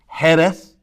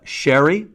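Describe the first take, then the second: First: It is said the Spanish way, with a rasped start. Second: It is said the English way, as sherry. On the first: "the Spanish pronunciation" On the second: "the British pronunciation"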